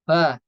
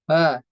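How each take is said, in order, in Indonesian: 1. Bibir dimajukan terlalu sedikit. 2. Bibir dimajukan terlalu sedikit.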